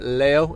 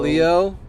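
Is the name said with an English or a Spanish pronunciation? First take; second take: Spanish; English. First: The name is said with a Spanish pronunciation. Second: The name is said with an English pronunciation.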